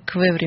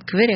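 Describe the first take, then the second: First: The middle v sound is pronounced. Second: The middle v sound is missing. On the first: The speaker calls it right. "а Квеври, мне кажется" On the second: The speaker calls it wrong. "не только не Квери"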